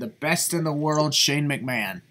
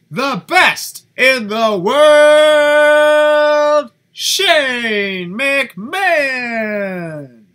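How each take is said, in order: First: It is said flatly, without conviction. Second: It is said with emphatic conviction.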